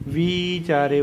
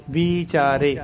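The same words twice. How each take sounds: First: ਵਿਚਾਰੇ with the long double-e vowel on ਵਿ; ਵਿਚਾਰੇ ਨੂੰ ਲੰਮੀ ਈ ਨਾਲ ਬੋਲੋ; careful pronunciation. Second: ਵਿਚਾਰੇ spelled out then said whole, long ee; ਵਿਚਾਰੇ ਸਾਫ਼ ਉਚਾਰਨ; careful pronunciation. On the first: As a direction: say ਵਿਚਾਰੇ slowly, stretching ਵਿ to a long ee. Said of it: "double ਈ ਦੀ sound ਦਿੰਦੀ ਹੈ". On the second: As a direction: say ਵਿਚਾਰੇ clearly, syllable by syllable. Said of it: "ਚੱਚੇ ਕੰਨਾ ਚਾਰ ਆਰੇ ਲਾਵਾਂ ਰੇ". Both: Shown as a demonstration.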